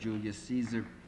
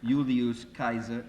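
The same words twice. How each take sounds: First: The name is said in an English way. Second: The name is said in a classical Latin way. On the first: "instead of Julius Caesar" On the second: "satisfy some Latin purists"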